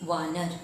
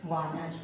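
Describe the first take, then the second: Both takes have the same delivery.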